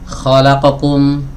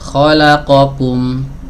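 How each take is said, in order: First: Some short vowels are clipped and rushed. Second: Every short vowel gets the same even length. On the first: The speaker calls it wrong. "ini ikhtilas" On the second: The speaker calls it right. "Yang benar ... satu harokat"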